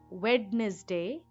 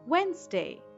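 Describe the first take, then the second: First: The D sound is pronounced in the word. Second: The D sound is left silent in the word. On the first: The speaker calls it wrong. "not Wednesday" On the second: The speaker calls it right. "D is silent in this word"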